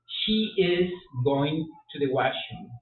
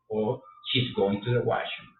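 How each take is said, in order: First: Slow full form. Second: Said in the usual way. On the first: Shown as a demonstration. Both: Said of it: "La contracción del verbo to be".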